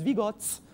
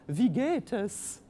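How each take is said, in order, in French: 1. Elle est prononcée avec un accent suisse allemand. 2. Elle est prononcée avec un accent allemand standard. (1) "alors que les Suisses allemands, ils disent" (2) "en allemand, comment ça va? Vous le dites"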